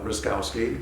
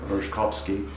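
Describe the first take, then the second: First: The surname is given an American English pronunciation. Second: The surname is given a Polish pronunciation. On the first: "That's how we pronounce it in California" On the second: "in Poland, it would be more like"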